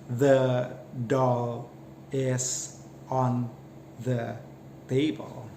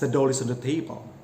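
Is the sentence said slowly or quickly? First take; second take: slowly; quickly. First: The words are said slowly and separately. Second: The words are said quickly and run together. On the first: "in slow pace" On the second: "the native speaker tend to say it as"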